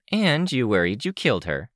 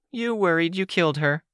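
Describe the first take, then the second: First: Said in the usual way. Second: "you" said high and hard, thrown back; stress on you. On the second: Acted. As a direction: hit the first "you", turn the blame around. Echo throws blame back.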